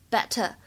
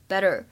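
First: The t in the middle is a crisp t. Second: The t in the middle is a soft d-like flap. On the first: "在英式英语当中呢，我们读作better better" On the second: "如果大家练的是美音的话呢，我们把它读作better better"

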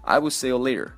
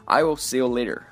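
First: The t in later is a soft flap. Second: The t in later is a soft flap.

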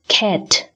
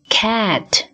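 First: The vowel has a less open mouth. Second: The vowel has a wide-open mouth. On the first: The speaker calls it wrong. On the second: The speaker calls it right.

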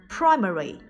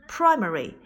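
Both takes have the same delivery.

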